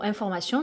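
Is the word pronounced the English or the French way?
French. The ending sounds like French 'sion', not 'shun'. "le mot information"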